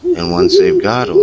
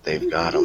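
First: High, loud dramatic build on once; dramatic rise. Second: Softer, dropped payoff after the build; quiet ominous. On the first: Storyteller to the campfire, high and loud build. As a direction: swell up high and loud on the first half. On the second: Storyteller to the campfire, soft ominous payoff. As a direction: let it fall quiet and final. Dramatic repetition, dropped low. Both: Acted.

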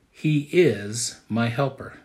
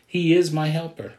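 First: Slow, every word weighed: He is my helper; slow emphatic statement. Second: "is" punched, higher and louder; stress on IS. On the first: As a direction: lay down "He is my helper" slowly like a key point. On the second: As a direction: hit the word "is" in "He is my helper". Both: Shown as a demonstration. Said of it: "That's point number one".

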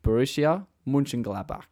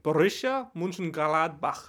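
First: Plain Australian pronunciation; Australian accent. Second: Slow, deliberate German accent. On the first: Host having a go at the club's name in an Australian accent. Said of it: "say it in my Australian accent". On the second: Co-host showing how the club's name goes in a German accent. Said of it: "in a German accent or whatever". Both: Shown as a demonstration.

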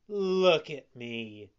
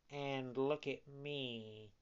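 First: Slow, loud, emphatic appeal; admonishing fox. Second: Slow, soft, subdued appeal; echoing cat. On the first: Lame fox warning puppet against study, slow and emphatic. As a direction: hold yourself up as a warning. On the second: Blind cat echoing fox's warning, slow and soft. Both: A narrator's reading.

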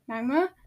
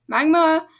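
First: MAGMA with a rising, uncertain end; questioning call. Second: Loud, higher cry of a name; alarmed call. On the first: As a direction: ask "Magma" as a tentative question. Calling for missing friend, first time. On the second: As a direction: call out louder for the missing friend. Calling again, louder, friend missing. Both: A narrator's reading.

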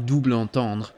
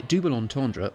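First: "double entendre" in a French accent, "doobl"; French pronunciation. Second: "double entendre" anglicised, "double" said as in English; English-style pronunciation. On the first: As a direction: say "double entendre" the French way, nasal vowels and swallowed "-dre". French form set against English form. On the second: English form set against French form. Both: Shown as a demonstration.

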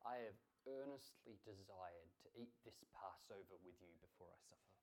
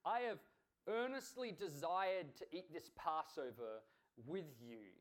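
First: Low, hushed reading of Jesus's words; quiet, solemn quotation; solemn scripture quote. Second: EARNESTLY slow and forceful; slow, weighty stress on "earnestly"; emphatic scripture quote. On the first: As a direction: quote it softly and low, fading at the end. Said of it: "And what does Jesus say?". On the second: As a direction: lean hard on "earnestly desired", then drop on "with you". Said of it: "He says". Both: Retold or imitated.

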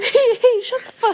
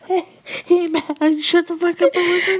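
First: Higher, louder laughing repeat; squeaky laughing copy; laughing echo. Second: High, loud, laughing shut up; playful laughing command; laughing mock scold. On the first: Pretend. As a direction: mimic the scolding through giggles. Echoing friend's mock scold. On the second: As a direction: boss the audience while giggling.

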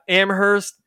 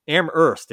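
First: Amherst with the H sounded. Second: Amherst with the H silent. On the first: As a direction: say Amherst with an audible h after the m. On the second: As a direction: say Amherst like "Am-erst", dropping the h. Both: Shown as a demonstration. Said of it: "where you don't pronounce the H".

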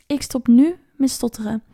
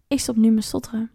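First: Firm self-command, leaning hard on "nu"; stress on NU. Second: Said in the usual way. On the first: Retold or imitated. Man on a trip telling himself to stop stuttering, stress on "nu". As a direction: punch "nu" a little louder, with a beat after it. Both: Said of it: "zei hij tegen zichzelf".

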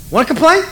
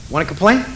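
First: Higher, louder mock threat; mock-angry. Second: Said in the usual way. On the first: God to complaining Israel, higher louder mock threat. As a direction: snap it high like a fed-up parent. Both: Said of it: "God has one of those moments".

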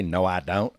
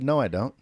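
First: Mock drawled "No, I don't"; Southern drawl. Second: Said in the usual way. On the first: Host denies he said it that way, mock Southern drawl. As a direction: exaggerate the Southern vowels in "No, I don't". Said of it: "I didn't say". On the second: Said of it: "I said".

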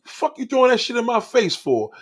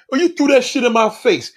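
First: Higher, a touch of angry snapping; retold anger. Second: Higher, louder offended protest; mock the hurt accusation; indignant retort. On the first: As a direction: replay the irritated comeback. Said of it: "And I got mad". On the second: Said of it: "and you be like".

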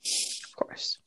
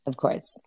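First: Breathy whispered aside. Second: Soft echoed whisper. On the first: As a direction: whisper it knowingly. Ironic aside. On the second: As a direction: whisper it back. Echoing the whisper. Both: Real, not acted.

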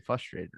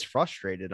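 First: "frustrated" as FUS-trated; without the R. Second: "frustrated" as FRUS-trated. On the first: Host showing his habitual version, first R dropped. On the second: Host comparing his two versions, R sounded. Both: Shown as a demonstration. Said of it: "I've always said frustrated".

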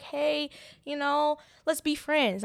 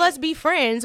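First: Mock friendly offer. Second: Mock friendly line. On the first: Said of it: "I didn't say". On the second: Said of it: "that's how I come off".

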